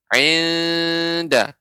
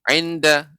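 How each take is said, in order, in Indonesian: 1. Vokalnya ditahan dengan panjang penuh. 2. Vokalnya dipotong pendek dan terburu-buru. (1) "tidak terlalu singkat ya" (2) "tidak inda"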